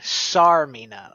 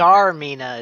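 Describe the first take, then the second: First: The name begins with a hissing S sound. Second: The name begins with a buzzing Z sound. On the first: "like an S" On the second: "Zarmina is what you're saying"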